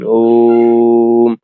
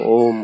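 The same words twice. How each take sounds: First: The om is long and drawn out. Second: The om is short and quickly repeated. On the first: It is the genuine complete sound. The speaker calls it right. "इस प्रकार से आएगा ना लंबा आएगा" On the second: It is only the mind's own projection. The speaker calls it wrong. "मन जो है प्रोजेक्ट कर रहा है ओम"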